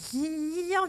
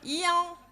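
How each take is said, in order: First: The name is said with all its consonants. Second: The name is said with only its vowels.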